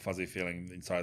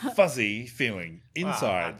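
First: The words are read flatly without warmth. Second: The words are said warmly with affection. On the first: The speaker calls it wrong. "You did not say that with an ounce of love" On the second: The speaker calls it right. "it's much better"

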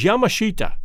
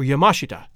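First: The stress is not on the second syllable. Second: The stress is on the second syllable. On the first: The speaker calls it wrong. "it looks like it should be read as Yamashita" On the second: The speaker calls it right. "the correct pronunciation is Yamashita or Yamashita, with the accent on the second syllable"

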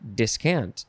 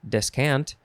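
First: The first syllable is pronounced dis. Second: The first syllable is pronounced des. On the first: "Des or dis" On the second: "Des or dis"

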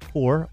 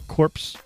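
First: The word ends without a 'ps' sound. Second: The word ends with a 'ps' sound. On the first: "core or corpse, depending on how you want to pronounce it" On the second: "core or corpse, depending on how you want to pronounce it"

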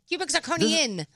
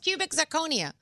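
First: The last word ends with an added n sound. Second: The last word ends in a vowel, no n. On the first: The speaker calls it wrong. "What did I say? ... There's no N?" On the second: The speaker calls it right. "No, it's cubic zirconia"

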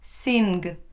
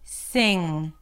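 First: It ends with an n followed by a g. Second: It ends with one nasal sound, no g. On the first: The speaker calls it wrong. "There is no N and then a G sound. Sing. No" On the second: The speaker calls it right. "It is one consonant that is produced in the back of the mouth"

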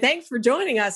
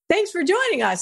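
First: It is said in a sarcastic, negative tone. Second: It is said in a sincere, warm tone. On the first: The listener is being criticized for arriving late. "that's a negative thing" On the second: The listener is genuinely welcomed. "and I showed up on time"

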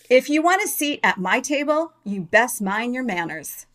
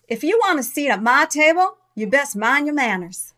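First: It is said in a plain, neutral accent. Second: It is said in a Southern American accent. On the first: The speaker calls it wrong. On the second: The speaker calls it right.

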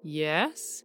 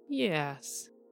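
First: The word is said with rising pitch. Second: The word is said with falling pitch. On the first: "a rising" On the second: "and a falling"

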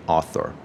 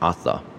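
First: It is said with an American pronunciation. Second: It is said with a British pronunciation. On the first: "偏向美式会念成Arthur" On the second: "偏向英式可能是Arthur"

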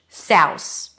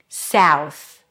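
First: The word ends with an S sound. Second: The word ends with a TH sound. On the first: The speaker calls it wrong. "or put an S instead of the final TH" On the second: The speaker calls it right. "Close it with a TH"

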